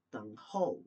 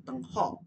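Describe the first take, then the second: First: Teng ho, the ho ending in a clear u glide, like hou; the correct way, ho closing on u; right ho with u. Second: Teng ho with a bare ho and no u at the end; the wrong way, a plain ho without u. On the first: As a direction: round ho off into u. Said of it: "Ho itu ada u belakangnya". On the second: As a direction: clip ho short, without the u glide. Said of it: "Jangan ho aja". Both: Shown as a demonstration.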